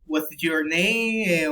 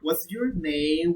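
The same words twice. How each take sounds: First: "What's your name?" slow, falling at the end; falling intonation. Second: "What's your name?" with a friendly rise; rising intonation. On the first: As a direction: let "name" drop in a drawn-out question. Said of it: "question for an intonation". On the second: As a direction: lift the tune of "What's your name?" to show interest. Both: Shown as a demonstration.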